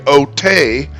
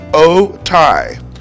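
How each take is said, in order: First: The name ends with an 'ay' sound. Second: The name ends with an 'eye' sound. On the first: The speaker calls it wrong. "you might be tempted to say" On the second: The speaker calls it right. "the letters A and Y together make the I sound. So the correct way to say it is"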